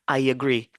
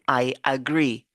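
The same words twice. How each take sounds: First: A y glide links the two words together. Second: The two words are said separately, without a glide. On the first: The speaker calls it right. "c'est comme si on a le ya dedans" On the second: The speaker calls it wrong. "On ne va pas dire I agree"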